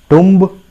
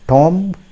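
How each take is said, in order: First: It has a short u vowel, like tum. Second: It has a short o vowel, like Tom. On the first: "I'm sorry. That's not going to serve the purpose" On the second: "If you pronounce it Tom, ... That's not going to serve the purpose"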